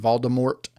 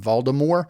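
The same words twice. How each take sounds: First: The final T is clearly pronounced. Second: The final T is left silent. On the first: The speaker calls it right. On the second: The speaker calls it wrong.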